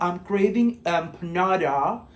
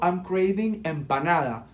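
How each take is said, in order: First: Empanada is pronounced with an English accent. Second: Empanada keeps its Spanish pronunciation. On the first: The speaker calls it wrong. "No te estoy diciendo" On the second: The speaker calls it right. "viste que yo te digo"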